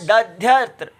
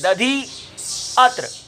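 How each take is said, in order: First: The two words run together with a y sound. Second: The two words are separated by a gap. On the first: "अर्ध अर्ध मात्रा है या उससे कम है" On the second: "यहां अर्धकाल से अधिक हमने समय ले लिया"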